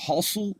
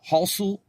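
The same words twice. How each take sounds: First: Said in the usual way. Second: "halsu" repeated for emphasis, pitched high; emphatic repeat. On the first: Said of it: "You just say halsu once". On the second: Shown as a demonstration. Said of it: "pronouncing it a second time for, for emphasis".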